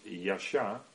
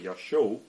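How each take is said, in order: First: The word does not end in an o sound. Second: The word ends in an o sound. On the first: The speaker calls it wrong. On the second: The speaker calls it right.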